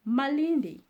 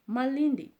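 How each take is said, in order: First: It has an L and an N before D. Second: The same.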